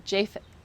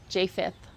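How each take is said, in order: No difference in how they are said.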